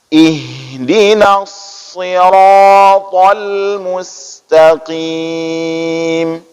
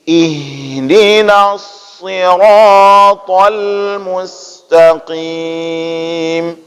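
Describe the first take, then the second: The two takes are said the same way.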